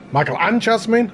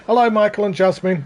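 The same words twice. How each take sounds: First: Jasmine rising high as an unsure question; puzzled question tune. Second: Said in the usual way. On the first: Real, not acted. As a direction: ask Michael and Jasmine doubtfully. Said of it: "I don't know". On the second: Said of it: "Michael stroke Jasmine".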